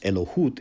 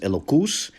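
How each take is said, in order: First: The word has an h sound and ends in t. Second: The word has a k sound and ends in s. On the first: This is the modern Israeli pronunciation. "pronounced Elohut in modern Israeli Hebrew" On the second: This is the traditional religious pronunciation. "when he says elokus"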